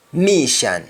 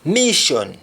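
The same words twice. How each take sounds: First: Mission ending in open "shan"; Jamaican pronunciation. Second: Said in the usual way. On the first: Shown as a demonstration. Teacher showing Jamaican speech, mission said as "mishan". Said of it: "That is accent". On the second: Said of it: "English words that end with shon".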